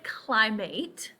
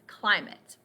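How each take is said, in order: First: The last syllable sounds like 'eight'. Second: The last syllable sounds like 'it'. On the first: The speaker calls it wrong. "this word by itself is eight, but we don't say climate" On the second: The speaker calls it right. "fits with these other pronunciations"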